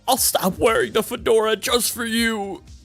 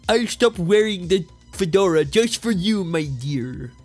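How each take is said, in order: First: A weak Comic Book Guy impression is used. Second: A strong Comic Book Guy impression is used.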